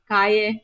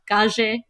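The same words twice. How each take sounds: First: The double L does not sound like a J. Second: The double L sounds like a J. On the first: This is how it is said elsewhere. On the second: This is how it is said locally.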